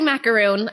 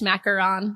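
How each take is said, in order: First: The last syllable has a long 'oo' vowel. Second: The last syllable has a short 'o' vowel. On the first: This is the everyday way the speaker says it. "I say macaroon" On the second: This is the technically correct but pretentious way. "technically, it, I guess macaron. But I feel a little pretentious saying it like that"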